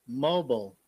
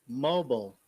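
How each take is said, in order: Both takes have the same delivery.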